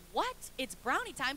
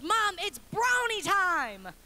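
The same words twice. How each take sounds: First: Incredulous questioning echo; puzzled mom. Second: Put-on slow, high, loud toddler announcement; excited toddler. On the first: Retold or imitated. Mom to toddler demanding brownies early, puzzled disbelief. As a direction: repeat it back in disbelief, without the excitement. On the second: Toddler to mom first thing in the morning, excited announcement. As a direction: proclaim it like an overjoyed three-year-old.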